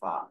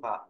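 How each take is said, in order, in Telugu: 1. ఈ హల్లు గట్టి ఊపిరి లేకుండా పలకబడుతుంది. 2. ఈ హల్లు గట్టి ఊపిరితో పలకబడుతుంది. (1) "సాధన చక్కగా చేసుకుంటూ ... మేన్ రాశి యొక్క శబ్దం ఏంటంటే ఫా" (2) "మామూలుగా ఉంటున్నటువంటి వాడికి ఒత్తు ఫా"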